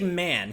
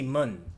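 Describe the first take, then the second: First: The vowel is the open 'a' of 'man'. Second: The vowel is the short 'u' of 'mun'. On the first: "He would never say man" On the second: "He would say mun"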